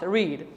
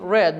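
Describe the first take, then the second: First: The vowel is long, like in 'reed'. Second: The vowel is short, like in 'red'. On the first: The speaker calls it wrong. "not read" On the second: The speaker calls it right. "we say read"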